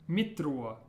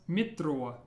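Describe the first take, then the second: The two takes are said the same way.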